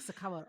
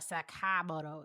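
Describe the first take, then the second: First: The vowels are short and quick. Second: The vowels are drawn out and long. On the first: The speaker calls it right. "it's like Sakamoto. Like it's it's quick" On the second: The speaker calls it wrong. "it's not a long A. It's not a Sakamoto"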